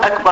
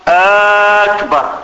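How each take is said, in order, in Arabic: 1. الحركة الأولى في الكلمة قصيرة. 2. الحركة الأولى في الكلمة ممدودة. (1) "لا يقول أكبر هكذا" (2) "يمدها"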